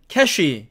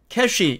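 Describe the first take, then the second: First: It is said with Korean loanword pronunciation. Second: It is said with Korean loanword pronunciation.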